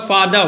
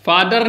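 First: "फादर" said fa-da, without R; silent final R. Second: "फादर" ending in a sounded R; final R pronounced. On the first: Teacher shows the correct reading, "फादर" as fa-da, R silent. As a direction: drop the last R in "फादर": fa-da. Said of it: "मतलब यहाँ आर क्या है?". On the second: Teacher shows the wrong reading, "फादर" with final R. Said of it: "फादर नहीं होता". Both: Shown as a demonstration.

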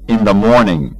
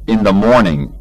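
Both takes have the same delivery.

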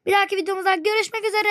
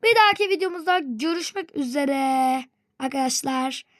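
First: Quick, higher hurried outro; rushed sign-off. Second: Said in the usual way. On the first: Real, not acted. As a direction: rattle off the goodbye fast. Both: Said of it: "ya ne olursunuz durun".

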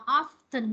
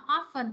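First: "often" with the T sounded, like OFF-tin; "often" as OFF-ten; T pronounced. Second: "often" with a silent T, like OFF-en; "often" as OFF-fun. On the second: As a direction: say "often" without sounding the T. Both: Shown as a demonstration. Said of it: "Chữ này có hai cách đọc".

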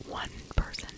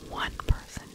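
The two takes are said the same way.

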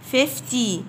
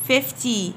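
Both takes have the same delivery.

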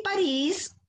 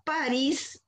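First: París said as pa-RÍS, last syllable high and drawn out; slow, raised pa-RÍS for París; stress on last syllable. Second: París said as PÁ-ris, first syllable stressed. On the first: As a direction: lean hard on RÍS in París. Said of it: "que es la capital de Francia". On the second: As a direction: hit the PA in París, let -ris fall away. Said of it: "que es un personaje de la guerra de Troya". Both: Shown as a demonstration.

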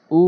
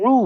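First: "উ" as a clean oo; plain hamza. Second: "উ" begun with a squeezed throat; throaty ain. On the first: Teacher drilling hamza against ain, plain "উ". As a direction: say "উ" with an open throat. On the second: Teacher drilling ain against hamza, throaty "উ". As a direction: push "উ" out as ain plus oo. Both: Shown as a demonstration. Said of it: "উচ্চারণ করতে হবে আইন এনে".

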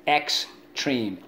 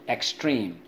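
First: "Extreme" split as ex, treme; syllable by syllable. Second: Said in the usual way. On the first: Shown as a demonstration. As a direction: sound out "Extreme" in two beats. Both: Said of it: "Let's go".

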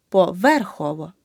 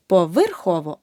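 First: Поверхово with a clear е after в; correct vowel demo. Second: Поверхово with и after в; the mistake in поверхово, и for е; wrong vowel demo. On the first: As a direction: say поверхово as "po-VER-khovo", punching ver. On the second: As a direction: say поверхово wrongly as "po-vyr-khovo". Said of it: "Не поверхово". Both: Shown as a demonstration.

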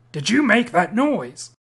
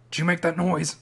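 First: "you" pushed hard, slower and louder; demanding repeat. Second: Said in the usual way. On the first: Acted. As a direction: press "you", slow and insistent. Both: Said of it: "Hey, answer me".

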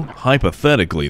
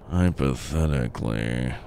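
First: Said in the usual way. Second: Hushed repeat. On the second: Real, not acted. Player doubting his plan should work, hushed low murmur. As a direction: say it softly, sinking low.

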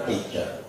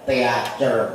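First: Teacher said softly as English tee-cher; proper English pronunciation. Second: Teacher read slowly as spelt, te-a-cher; spelling-style reading. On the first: Preacher gives the proper English reading, softly. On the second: Preacher mocks reading English as spelt, slowly. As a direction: sound out teacher letter by letter. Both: Shown as a demonstration.

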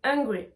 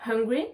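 First: Hungry without h, like angry. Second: Hungry with the h sounded; hungry with a breath on the h. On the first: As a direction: open hungry on the vowel. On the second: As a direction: puff the h at the start of hungry. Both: Shown as a demonstration. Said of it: "on doit la prononcer".

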